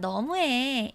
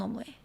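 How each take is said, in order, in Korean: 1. 가볍고 놀리는 듯한, 장난스럽게 투정하는 느낌이에요. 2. 정말 속상하고 화난 느낌이에요. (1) "이렇게 말하면 장난스럽게 투정하는 느낌" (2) "이렇게 말하면 정말 서운하거나 화난 느낌"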